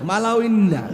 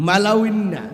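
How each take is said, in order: The two takes are said the same way.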